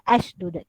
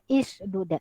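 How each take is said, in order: First: The word begins with an a vowel. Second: The word begins with an i vowel. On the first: "Kita tidak boleh baca ashdud" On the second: "Kita tidak boleh baca ishdud"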